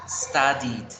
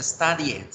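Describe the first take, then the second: First: "studied" ending in "-did", "STA-did"; correct past ending. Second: "studied" ending in "-yet", "STA-dyet"; mispronounced past ending. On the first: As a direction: say "studied" with an "id" ending and clear final d. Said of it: "Se deben pronunciar". ("studied" bien pronunciado: "sta-did") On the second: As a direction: say "studied" wrongly, with a spelled-out e in the ending. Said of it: "No se pronuncia". ("studied" mal pronunciado, terminado en "-yet") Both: Shown as a demonstration.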